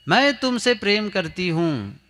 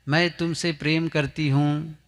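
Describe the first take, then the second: First: It is said loudly and forcefully. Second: It is said at normal, soft volume.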